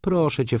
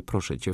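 First: PROSZĘ high, pressing; Proszę cię lifted high and urged; insistent plea. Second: Tired, softened request with cię trailing off; soft plea. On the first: Izabela urging Flora, insistent plea. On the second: Izabela wearily asking Flora, soft plea. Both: Acted.

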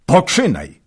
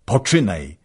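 First: High, much louder second shout; louder shouted urging. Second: Loud call to begin; shouted urging. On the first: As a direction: push harder the second time. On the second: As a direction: urge him on, shouting. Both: A narrator's reading. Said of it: "krzyknął Wolodyjowski".

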